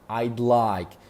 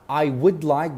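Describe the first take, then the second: First: I and would are contracted together. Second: I and would are said in full.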